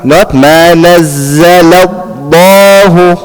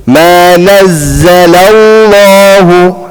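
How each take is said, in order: First: Chanted slowly, the lam in الله stopped short before the vowel; lam cut off. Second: Chanted slowly, the lam in الله held and flowing; lam sound continuing. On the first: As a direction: break the sound at the lam of الله. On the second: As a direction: let the lam of الله sound on without stopping. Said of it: "lam, the sound doesn't stop". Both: Shown as a demonstration.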